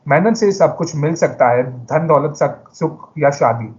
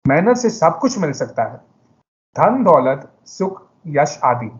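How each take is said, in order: First: The sentence runs on without clear pauses. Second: The sentence has pauses at several places. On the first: "सबसे पहले मैं ऐसे कहूँगा" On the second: "मैंने कई जगहों पर विराम दिया"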